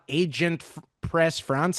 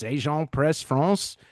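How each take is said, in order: First: The name is said with English-style sounds. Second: The name is said with French-style sounds. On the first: The speaker calls it wrong. "It's not" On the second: The speaker calls it right.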